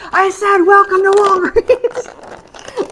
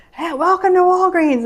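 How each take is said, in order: First: High, loud, slow repeated yell; yelling it again. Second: High, loud shop greeting call; yelling greeting. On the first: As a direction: spell it out slowly and loudly for a deaf listener. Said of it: "the lady yells". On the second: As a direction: call the welcome across the store, high and loud. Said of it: "was yelling when you come in". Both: Retold or imitated.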